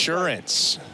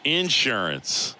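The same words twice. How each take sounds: First: It is said in a standard accent. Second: It is said in a Southern accent.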